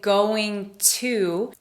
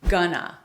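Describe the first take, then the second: First: Both words are said fully and separately. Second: The words are reduced into one short word. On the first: "instead of saying going to" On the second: "we reduce that to gonna"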